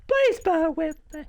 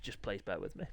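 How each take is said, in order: First: Very high put-on plea; silly high voice. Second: Said in the usual way. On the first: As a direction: squeak the plea out for comic effect.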